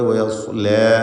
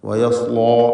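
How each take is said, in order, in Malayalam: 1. അവസാന സ്വരം ലഘുവും a പോലെ തുറന്നതുമാണ്. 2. അവസാന സ്വരം ഭാരമുള്ളതും o പോലെ വൃത്താകൃതിയിലുള്ളതുമാണ്. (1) "ലാ എന്ന് തർക്കീഖ് ചെയ്യണം" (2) "വയസ്ലോ എന്നായി പോയത്"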